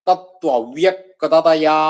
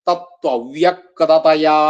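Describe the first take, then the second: No difference in how they are said.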